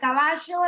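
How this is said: It is said with an Argentine accent. "el argentino va a pronunciar caballo"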